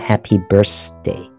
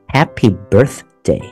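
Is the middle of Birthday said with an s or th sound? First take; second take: s sound; th sound. First: Birthday is said with an s sound. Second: Birthday is said with a th sound. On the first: The speaker calls it wrong. "很可能就会被误认为是一个S 的音，所以会变成Happy Birthday" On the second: The speaker calls it right. "但是正确的念法是Happy Birthday，那个TH 的是舌头伸出来"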